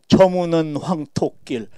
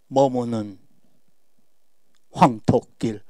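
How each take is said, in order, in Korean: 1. 단어들이 쉼 없이 이어집니다. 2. 긴 쉼이 두 구절을 나눕니다. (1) "이래야 속이 시원하니까 그러는데 이건 아닙니다" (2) "한행 한행 뒤에 푹푹 오래 쉬어줘야지"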